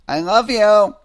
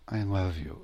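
First: The voice sounds harsh and edgy. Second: The voice sounds warm and soft.

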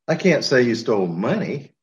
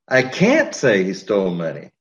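First: The word "money" is stressed. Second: The word "can't" is stressed. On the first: He may have stolen something else. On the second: Saying it is not allowed.

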